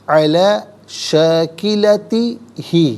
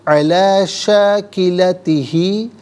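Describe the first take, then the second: Both takes have the same delivery.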